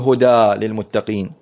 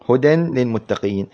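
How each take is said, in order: First: The first word ends in a long 'aa' vowel. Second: The first word ends in a short vowel with nasal 'n'. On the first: The speaker calls it wrong. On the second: The speaker calls it right.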